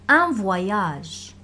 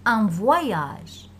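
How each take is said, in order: First: « voyage » prononcé vwa-yage; oy dit wa-y. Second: « voyage » prononcé vwa-yage, oy bien marqué; oy dit wa-y. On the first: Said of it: "Moi, je dis un voyage". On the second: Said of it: "Moi, je dis". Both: Shown as a demonstration. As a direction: dis « voyage » en faisant sonner oy. (« voyage » : oy se dit wa-y)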